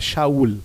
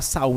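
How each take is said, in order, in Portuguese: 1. O nome começa com um som de sh. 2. O nome começa com um som de s simples. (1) "você fala Shaul" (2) "Você não fala Saul em hebraico"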